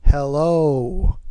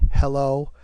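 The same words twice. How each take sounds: First: The pitch moves up and down. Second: The pitch stays level throughout.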